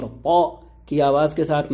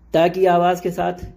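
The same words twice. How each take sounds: First: "طا" thick, from the back of the mouth; heavy back T. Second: "تا" said as a plain thin T syllable; light T. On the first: Teacher contrasting meanings by first letter, heavy "طا". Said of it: "معنی ہیں خوبصورتی کے". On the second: Teacher contrasting meanings by first letter, thin "تا". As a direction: keep "تا" light, with no thickening. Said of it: "معنی ہیں پڑھنے کے". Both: Shown as a demonstration.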